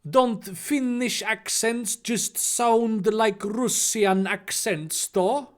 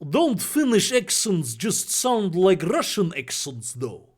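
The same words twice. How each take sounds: First: It is spoken in a Finnish accent. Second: It is spoken in a Russian accent. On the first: "that's not a very good Finnish accent" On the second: "here's the difference"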